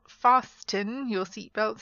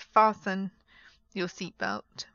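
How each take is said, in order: First: The T in 'fasten' is pronounced. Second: The T in 'fasten' is silent. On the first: The speaker calls it wrong. "it's not fasten your seatbelts" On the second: The speaker calls it right. "it's fasten your seatbelt"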